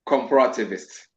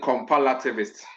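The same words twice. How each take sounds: First: The r sound is pronounced clearly as r. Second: The r sound is mixed up with an l. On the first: The speaker calls it right. "it's just comparativist" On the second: The speaker calls it wrong. "those who have problem with their R and their L, then they'll say"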